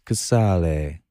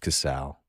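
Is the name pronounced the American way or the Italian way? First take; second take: Italian; American. First: The name is said with an Italian pronunciation. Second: The name is said with an American pronunciation. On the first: This is how it is said in Italy. "In the motherland. It's Casale" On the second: This is how it is said locally. "But here, it's Casale"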